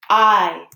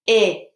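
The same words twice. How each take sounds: First: The vowel is said with its long sound. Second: The vowel is said with its short sound. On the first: The speaker calls it right. "So sneaky E tells I, say your name" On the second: The speaker calls it wrong. "I don't say I because there's sneaky E"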